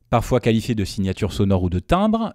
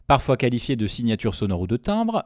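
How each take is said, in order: First: The low frequencies are boosted, sounding fuller. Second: The upper mids and highs are boosted, sounding brighter. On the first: "Donc là on a le boost de grave d'engagé uniquement" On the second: "De retour à plat côté grave, c'est le premier écran d'accentuation du haut, du haut médium aigu"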